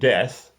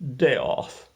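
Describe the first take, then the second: First: It sounds like the ordinary word death. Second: It sounds different from the ordinary word death. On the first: This is how the spelling looks. "Looks like death" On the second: This is how the name is actually said. "but it's pronounced Death"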